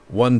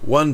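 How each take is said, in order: First: The voice sounds fuller with more bass. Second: The voice sounds thinner with less bass. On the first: "And now the studio mic" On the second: "I'm going to be using the shotgun mic here"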